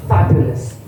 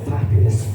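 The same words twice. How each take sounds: The two takes are said the same way.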